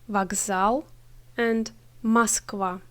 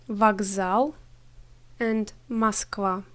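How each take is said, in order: Both takes have the same delivery.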